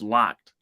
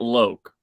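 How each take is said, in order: First: The name has a short 'o' vowel. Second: The name has a long 'oh' vowel. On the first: The speaker calls it right. "it's locked" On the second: The speaker calls it wrong. "it's not Loke"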